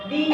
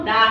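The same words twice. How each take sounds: First: 'দি' with an ee vowel; 'দি' উচ্চারণ. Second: 'দা' with an open aa vowel; 'দা' উচ্চারণ. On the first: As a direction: show 'দি' as dee. ('দি', ই-কার দিয়ে উচ্চারণ) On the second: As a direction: show 'দা' as daa. ('দা', আ-কার দিয়ে উচ্চারণ) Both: Shown as a demonstration. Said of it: "এই শব্দের উচ্চারণ কখন".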